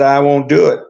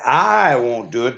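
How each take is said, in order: First: The word 'I' carries no special stress. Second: The word 'I' carries strong stress. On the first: The speaker will not take revenge. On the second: Someone else may do it instead.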